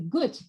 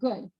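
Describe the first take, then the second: First: The final consonant is a voiceless T. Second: The final consonant is a voiced D. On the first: "the devoicing of final D, the gut" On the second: "instead of good"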